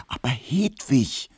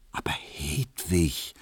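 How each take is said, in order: First: Slow, pleading whisper; urgent whisper. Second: Slow, pressing whisper; urgent whisper. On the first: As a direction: whisper it closer, insisting. (eindringliches Flüstern) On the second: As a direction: whisper to persuade her. (eindringlich geflüstert) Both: Acted. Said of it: "flüsterte Emil Kubinke eindringlich".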